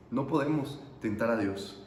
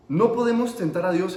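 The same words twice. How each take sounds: First: Low, soft, grave warning; subdued repeat. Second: Preacher's firm opening warning on "No podemos tentar a Dios"; emphatic warning. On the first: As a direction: drop right down and let it sink in. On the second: Preacher warns, then repeats it. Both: Real, not acted.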